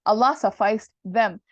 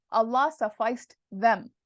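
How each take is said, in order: First: "Allah sufficed them" said much louder, leaning on "Allah"; stressed gloss. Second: Said in the usual way. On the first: Shown as a demonstration. Teacher repeating the gloss to students with a loud stressed "Allah". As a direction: punch "Allah" hard. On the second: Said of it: "That's what it means".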